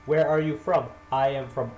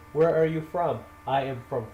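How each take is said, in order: Both takes have the same delivery.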